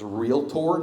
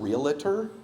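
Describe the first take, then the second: First: It is said without an extra middle vowel. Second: It is said with an extra middle vowel. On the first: The speaker calls it right. "that's how you pronounce that word, is realtor" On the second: The speaker calls it wrong. "not realtor"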